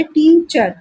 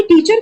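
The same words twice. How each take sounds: First: teacher split into two drawn-out beats, टी and चर; syllable split. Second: Said in the usual way. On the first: Shown as a demonstration. (Teacher को टी-चर में तोड़कर) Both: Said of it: "मतलब दो syllable है".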